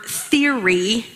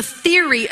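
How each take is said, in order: First: "theory" set apart and drawn out, ending on a rise; emphasis on theory. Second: Said in the usual way. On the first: Shown as a demonstration. Preacher singles out a word for the congregation, "theory" emphasized. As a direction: stretch out "theory" as a word to be noticed. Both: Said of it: "let me emphasize that word".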